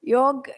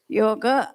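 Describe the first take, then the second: First: The word ends on a consonant, no final vowel. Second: The word ends with a clear final vowel. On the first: This is the Hindi way of saying it. The speaker calls it wrong. "योग is Hindi" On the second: This is the Sanskrit way of saying it. The speaker calls it right. "Yoga is Samskrita"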